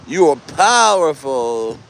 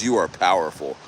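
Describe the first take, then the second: First: Attempted Italian accent. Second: Said in the usual way. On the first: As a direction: try a hammy Italian accent, stretching POWERFUL. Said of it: "I can't do an Italian accent".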